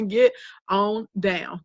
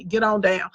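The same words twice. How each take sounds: First: "Get on down" stretched slowly, each word long; slow, drawn out. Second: Said in the usual way. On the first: Shown as a demonstration. To an unfollowing viewer, "Get on down" said slowly. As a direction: drag out "Get on down" for emphasis. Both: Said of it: "just like that".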